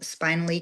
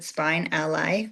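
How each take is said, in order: First: The name is said as one smooth word. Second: The name is split into spine and ally. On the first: "my office is called" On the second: "we can also pronounce it"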